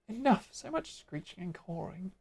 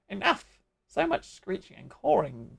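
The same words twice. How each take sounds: First: It is read in an ordinary, plain voice. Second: It is read in a put-on creature voice. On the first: "I don't know what voice to give" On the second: "I'm going to keep doing the Ixali voice"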